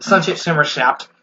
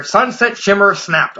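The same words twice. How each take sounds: First: Said in the usual way. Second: Slow, careful retake of Sunset Shimmer snapped. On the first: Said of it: "that's a tongue twister". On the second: Shown as a demonstration. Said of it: "Okay, there we go".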